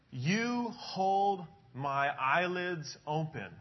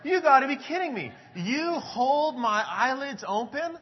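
First: Slow, deliberate reading of the verse; slow scripture reading. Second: High, loud incredulous question, "hold" stretched slowly; can't believe what he's reading; astonished disbelief. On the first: Pastor reading the verse aloud to the congregation, slow and deliberate. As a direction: read it out word by word, very slowly. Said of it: "It says". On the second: Pastor retelling rereading the verse, loud amazed disbelief. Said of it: "I said". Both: Retold or imitated.

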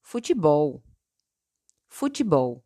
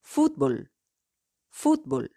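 First: "futebol" in Portuguese, stressed on BOL. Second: "fútbol" in Spanish, stressed on FÚT. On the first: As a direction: say "futebol" as foo-chee-BOW. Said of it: "En portugués". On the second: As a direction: say "fútbol" as FOOT-bol. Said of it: "En español". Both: Shown as a demonstration.

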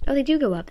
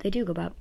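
First: High, loud delighted surprise; surprised. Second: Said in the usual way. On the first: Real, not acted. Watching the sound waves spike, high and loud amazement. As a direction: blurt it out, amazed.

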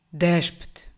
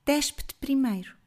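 First: Loud looming monster command; voz ameaçadora. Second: Put-on higher, defiant young woman; jovem firme. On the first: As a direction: order it like a beast. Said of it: "uma voz ameaçadora". (ordem de monstro ameaçadora) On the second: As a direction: throw the order back at him. Girl turns the command back. (jovem decidida e desafiante) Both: A narrator's reading.

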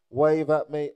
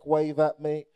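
No difference in how they are said.

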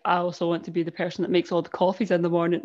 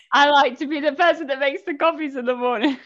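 First: Imitating someone with no emotion whatsoever; low-key emotionless mimicry; deadpan. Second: Higher-pitched mock quote; mimicked contestant. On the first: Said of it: "deadpan, no emotion whatsoever". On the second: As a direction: send up a reality show line. Mimicking a reality show contestant.

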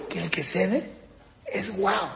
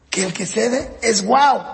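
First: First take, "es guau" laughed through; laughing. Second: "que el que cede es guau" said slowly, leaning on "guau"; slow emphasis. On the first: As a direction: chuckle the line out. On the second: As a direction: spell "guau" out deliberately, no laugh. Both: Shown as a demonstration.

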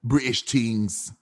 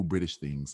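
First: Put-on slow, drawn-out British accent. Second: Said in the usual way. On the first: Friend trying out British phrases, slow British accent. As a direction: stretch it in a mock British accent. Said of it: "British things. Let's see".

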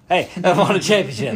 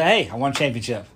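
First: Louder mock demand. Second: Said in the usual way. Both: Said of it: "little boring if we just".

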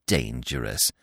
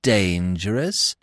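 First: Low, softer falling echo; superior, dismissive. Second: Slow, drawn-out rising question; smug, stretched-out query; superior, questioning. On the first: Gobo dismissing the others' warning, smug and low. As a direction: drop the word dismissively, smugly. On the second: Gobo scoffing at the warning, superior and questioning. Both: A narrator's reading. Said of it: "smiling in his superior way".

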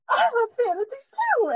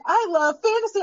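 First: Much higher, near-crying squeal of delight; overjoyed, almost tearful agreement; squealing excitement. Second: Said in the usual way. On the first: Retold or imitated. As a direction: gush it like a thrilled superfan. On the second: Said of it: "And she's like".

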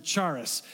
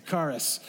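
First: Charis with a ch as in chair; mispronounced charis. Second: Charis with a hard k, "KAR-iss"; corrected charis. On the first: Shown as a demonstration. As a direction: say "charis" starting on an English ch sound, not k. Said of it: "I pronounced it charis". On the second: Retold or imitated. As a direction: say "charis" starting on a k sound, not ch. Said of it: "some Greek geek said".

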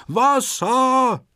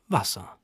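First: Very high, drawn-out storybook scream. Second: Softer, lower single word; hushed realisation. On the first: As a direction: cry out in high-pitched alarm. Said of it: "Antonio zappelt und schreit". (hoher, lang gezogener Schrei) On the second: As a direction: say it quietly as it sinks in. Amelie sees the water too. (leise, ganz verblüfft) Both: A narrator's reading.

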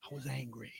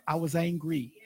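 First: I was angry repeated almost inaudibly; near-whispered echo. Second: Said in the usual way. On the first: Real, not acted. Preacher confessing his anger to the church, nearly whispered. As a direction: let it drop to a breath.

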